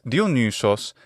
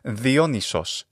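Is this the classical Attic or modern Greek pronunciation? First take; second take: classical Attic; modern Greek. First: It is said in classical Attic Greek pronunciation. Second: It is said in modern Greek pronunciation. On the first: "in classical Attic pronunciation" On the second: "in modern Greek pronunciation"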